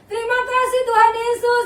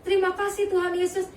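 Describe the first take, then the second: First: It is said loudly and forcefully. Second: It is said softly and quietly. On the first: The speaker calls it right. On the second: The speaker calls it wrong.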